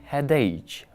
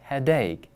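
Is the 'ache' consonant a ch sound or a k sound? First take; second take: ch; k. First: The word ends with a ch sound. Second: The word ends with a k sound. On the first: The speaker calls it wrong. "There is no ch sound. We don't say headache" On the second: The speaker calls it right. "We say headache. It's k"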